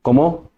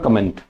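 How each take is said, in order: First: Comment said the French way as ko-mo, with a nasal end and no t; the correct French Comment, rising as a question; correct French pronunciation. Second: Comment said the English way, ending in a sounded nt; the mistaken comment, read as English; wrong pronunciation. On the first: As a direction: Comment with a silent t and a nasal final vowel. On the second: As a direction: pronounce comment like the English word comment. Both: Shown as a demonstration. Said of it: "This is not comment".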